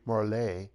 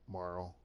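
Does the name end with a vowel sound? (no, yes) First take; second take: yes; no. First: The name ends with a vowel sound. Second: The name ends without a vowel sound. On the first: "I guess it could be Marley" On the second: "I never pronounce the E. ... But I always said Marl"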